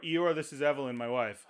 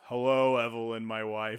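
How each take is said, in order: First: Said in the usual way. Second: Imitating Eeyore. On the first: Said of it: "he goes". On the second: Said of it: "his name's Eeyore".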